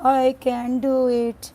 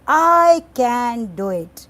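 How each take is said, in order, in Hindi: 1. यह वाक्य बहुत धीमी आवाज़ में कहा गया है। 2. यह वाक्य ज़ोर से कहा गया है। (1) "बहुत धीमी सी आवाज़ में कहा" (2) "ज़ोर से कह दिया"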